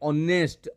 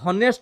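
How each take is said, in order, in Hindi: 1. यह शब्द सीधे स्वर से शुरू होता है। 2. यह शब्द h ध्वनि से शुरू होता है। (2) "एटा हनेस्ट नुहे"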